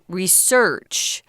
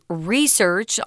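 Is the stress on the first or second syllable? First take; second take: second; first. First: The stress is on the second syllable. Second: The stress is on the first syllable. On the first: It is the verb. "for the verb, you'll hear people say research" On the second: It is the noun. "the pronunciation is research on the first syllable"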